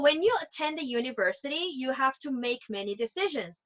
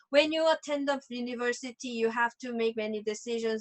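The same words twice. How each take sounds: First: It sounds conversational, as if addressing listeners. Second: It sounds self-absorbed, as if reading to oneself. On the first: The speaker is talking to the audience. The speaker calls it right. "like as if you are actually reading uh some dialogue out loud" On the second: The speaker is only reading for themselves. The speaker calls it wrong. "that was just me based. It was not audience based"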